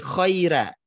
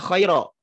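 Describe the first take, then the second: First: The word ends in an open 'a' sound. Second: The word ends in a rounded 'o' sound. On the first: The speaker calls it right. "tapi khaira" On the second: The speaker calls it wrong. "Bukan dibaca khairo"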